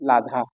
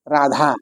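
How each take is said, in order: First: The word begins with an l sound. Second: The word begins with an r sound. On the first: The speaker calls it wrong. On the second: The speaker calls it right.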